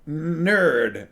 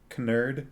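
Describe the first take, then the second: First: The word starts with an N sound. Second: The word starts with a K sound.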